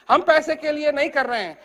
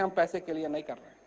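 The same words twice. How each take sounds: First: "पैसे" stressed, falling and firm; firm declaration. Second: Softer, fast, almost thrown away; quiet quick reply. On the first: Acted. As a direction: state it plainly and firmly, leaning on "पैसे". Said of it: "repeats reply firmly". ("पैसे" पर ज़ोर देकर दृढ़ता से) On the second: Retold or imitated. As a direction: say it low and quick, matter-of-fact. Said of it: "हम कहते हैं". (धीमी आवाज़ में जल्दी से)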